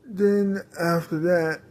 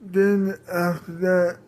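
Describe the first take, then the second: No difference in how they are said.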